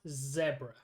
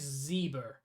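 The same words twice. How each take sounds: First: It is said in a South African way. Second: It is said in a non-South African way. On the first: It is how the speaker says it. "I pronounce it zebra. That's how everyone in South Africa pronounces it" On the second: Someone else said it. "He said Zebra"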